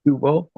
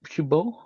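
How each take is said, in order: First: Shuvo said with a v, repeating the teacher's model; corrected v sound. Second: Shubo said with a b, as the learner's mistaken reading; reading the middle letter as b in shubo; wrong b sound. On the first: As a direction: fix it: a clear v in the middle of Shuvo. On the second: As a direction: shubo with a hard b instead of v. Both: Shown as a demonstration.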